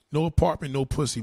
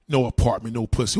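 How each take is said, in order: First: Said in the usual way. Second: Louder, lower, mocking the claim; scornful loud quote of the comment; mocking repeat. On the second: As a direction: throw their words back at them.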